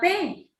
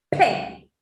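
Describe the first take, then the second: First: The letter's full spoken name is said. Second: Only a short burst of sound is made. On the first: "P se llama P" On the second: "como si es que explotara algo"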